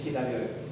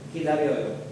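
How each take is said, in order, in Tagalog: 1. Nagsisimula ang salita sa tunog na sh. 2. Nagsisimula ang salita sa tunog na k. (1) "Hindi sa Shidaryoyo" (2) "hindi sa S"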